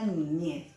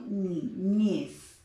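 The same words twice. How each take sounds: First: Said in the usual way. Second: "niñez" slowly split, NI then a strong ÑEZ; stress on last syllable. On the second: Shown as a demonstration. Teacher showing where intensity falls, "niñez" slowly stressed on ÑEZ. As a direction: break "niñez" in two and land on ÑEZ. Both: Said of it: "yo digo niñez".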